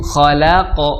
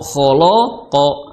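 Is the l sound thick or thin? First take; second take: thin; thick. First: The l sound is thin and light. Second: The l sound is thick and heavy. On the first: The speaker calls it right. "lamnya tipis" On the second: The speaker calls it wrong. "akhirnya lamnya jadi tebal"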